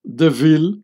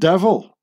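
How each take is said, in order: First: The stress falls on the second syllable. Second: The stress falls on the first syllable. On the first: It is a family name. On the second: It is the word for an evil being.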